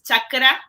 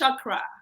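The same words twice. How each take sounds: First: The word is pronounced with Spanish sounds. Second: The word is pronounced with English sounds. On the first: "for us in Spanish, it's easy, easy to say because it's chakra" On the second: "In English, it's chakra"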